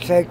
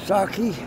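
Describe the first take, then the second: First: It is read the English way, as spelled. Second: It is said with a Japanese pronunciation. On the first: "It looks like sake" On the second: "the Japanese pronunciation is sake"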